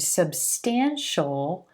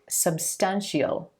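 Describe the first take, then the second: First: The ending is one syllable, a dark L. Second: The ending is two syllables, an ee sound then L. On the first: The speaker calls it right. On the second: The speaker calls it wrong.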